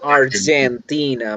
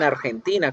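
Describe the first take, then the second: First: The word is pronounced with English sounds. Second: The word is pronounced with Spanish sounds. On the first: The speaker calls it right. "Argentina, muy bien" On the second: The speaker calls it wrong. "ustedes no dicen Argentina"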